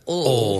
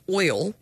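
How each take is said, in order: First: The word is said with the Southern pronunciation. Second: The word is said without the Southern pronunciation. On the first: "So many people around here pronounce it oil" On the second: "I say oil"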